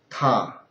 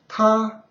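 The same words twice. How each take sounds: First: It is said with the third tone. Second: It is said with the first tone.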